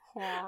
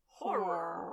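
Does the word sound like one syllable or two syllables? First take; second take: one syllable; two syllables. First: The word is squeezed into about one syllable. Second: The word is said with two clear syllables. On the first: The speaker calls it wrong. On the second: The speaker calls it right. "maybe I need to try to pronounce it a little more"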